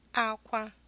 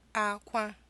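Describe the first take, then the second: The two takes are said the same way.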